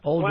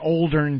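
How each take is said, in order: First: The word has no R sound before the N. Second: The word has an R sound before the N. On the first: The speaker calls it right. "I think it's O L D E N" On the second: The speaker calls it wrong. "Anthony says Oldern with an R in there"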